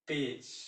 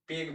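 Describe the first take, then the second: First: The word ends with a soft j sound. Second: The word ends with a hard g sound. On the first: The speaker calls it right. "ये ज के रूप में आया" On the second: The speaker calls it wrong. "पेग बोलिएगा गलत हो जाएगा"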